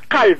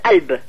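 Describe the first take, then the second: First: It begins with a deep q sound. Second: It begins with a glottal stop. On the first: "Dites calbe" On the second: "sans le kaf du tout, comme s'il y avait la Hamza au début"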